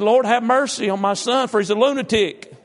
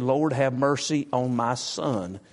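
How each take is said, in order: First: High, loud, laughing verse quote; loud, high, laughing scripture quote. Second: Slow quoted plea; slow, deliberate scripture quote; slow, weighty reading. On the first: Real, not acted. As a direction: reread the verse while cracking up. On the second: Shown as a demonstration. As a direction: draw the verse out slowly, word by word. Preacher re-reading the verse slowly.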